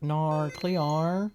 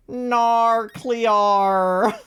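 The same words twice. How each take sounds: First: Softer, drawn-out meme delivery with rising end; quieter meme voice. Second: Loud, high, drawn-out meme cry. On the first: Streamer repeating a favorite meme, subdued drawn-out put-on voice. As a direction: stretch it out softly, lifting the end. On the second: Streamer doing a favorite meme, loud drawn-out put-on voice. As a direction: belt it out long and exaggerated. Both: Acted. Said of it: "I love doing that meme".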